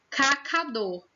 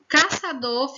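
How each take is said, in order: First: The second syllable starts with a k sound. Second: The second syllable starts with an s sound. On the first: "sem o cedilha" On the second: "Acrescenta um som de S à letrinha C"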